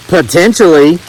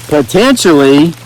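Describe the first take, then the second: First: Said in the usual way. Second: Potentially stretched slowly with a rising tune; Potentially slow, rising, teasing; slow teasing rise. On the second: Shown as a demonstration. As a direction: draw out Potentially and lift the end.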